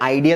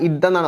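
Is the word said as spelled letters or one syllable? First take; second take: spelled letters; one syllable. First: It is said with two separate letter sounds. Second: It is said as one short syllable. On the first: The speaker calls it wrong. "ഐഡിയ എന്നല്ല" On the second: The speaker calls it right. "ഇതെന്നാണ് വായിക്കാറ്"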